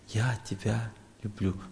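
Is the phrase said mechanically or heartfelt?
heartfelt. It is said slowly, warmly, with feeling. The words are sincerely meant. The speaker calls it right. "ты один раз скажи от сердца"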